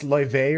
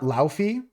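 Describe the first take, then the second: First: The name is said with a v sound. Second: The name is said with an f sound. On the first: The speaker calls it right. "it's Loive or something like that" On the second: The speaker calls it wrong. "It's not Laufey"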